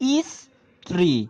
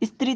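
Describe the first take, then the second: First: An extra vowel is added before the s cluster. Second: It starts directly with the s consonant cluster. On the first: "একটি স্বরধ্বনি এসেছে" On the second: "স্ত্রী থেকে"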